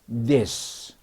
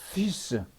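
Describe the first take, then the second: First: The th is voiced, with a buzzing d-like sound. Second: The th is voiceless, with only escaping air. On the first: The speaker calls it right. "혀를 물되 드 소리가 나는 겁니다" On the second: The speaker calls it wrong. "this를 바람 빠지는 소리라면"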